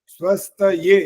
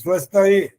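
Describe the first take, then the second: First: The word ends in a 'ye' sound. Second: The word ends in a bare 'e' sound. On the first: The speaker calls it right. "ये यज्ञ वाला य" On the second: The speaker calls it wrong. "ए बोलते हैं अधिकांश लोग"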